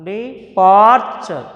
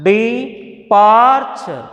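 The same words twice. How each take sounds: First: Said in the usual way. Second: departure, slow, PAR leaned on; slow de-PAR-ture demo; stress on PAR. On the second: Shown as a demonstration. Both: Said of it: "departure తీసుకోవచ్చు".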